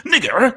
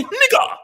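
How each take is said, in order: First: Final R pronounced rhotically; hard final R. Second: Final syllable as open "ah", no R, pitched high; English-accent open ending. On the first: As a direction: end the word on a clearly sounded R. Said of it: "with an English accent doesn't say". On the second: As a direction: drop the R and end high on "ah". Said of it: "an English person with an English accent". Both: Shown as a demonstration.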